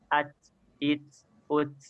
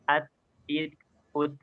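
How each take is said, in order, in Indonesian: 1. Huruf t bercampur dengan desis seperti s. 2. Huruf t bersih, tanpa desis seperti s. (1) "agar tidak mencampurnya dengan huruf sin. Seperti apa? Seperti ini" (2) "yang tepat itu"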